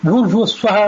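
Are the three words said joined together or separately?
joined. The words are run together as one unit. All utterances are recited as one combined whole. "ಎಲ್ಲವನ್ನೂ ಹೇಳಿದರೆ ಅದು ಸಮಸ್ತ ವ್ಯಾಹೃತಿ ಆಯಿತು"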